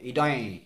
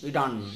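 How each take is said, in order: First: The word ends in a nasalized vowel. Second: The final n is curled back, retroflex. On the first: "ইয়ৰ ওপৰত চন্দ্ৰবিন্দু থকা নিচিনা হয়" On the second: "মূৰ্ধন্য ক'লে ইডন"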